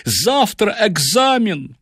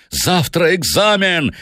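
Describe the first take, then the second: First: High, drawn-out wail of dismay; panicked professor pleading; frightened. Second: High, slow, savage outburst; enraged student bellowing; bull-like roar. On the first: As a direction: lament it slowly in a high, desperate voice. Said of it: "Профессор был поражён и напуган". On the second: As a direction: roar it furiously, stretching the words. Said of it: "Макларен ревел, как бык". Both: A narrator's reading.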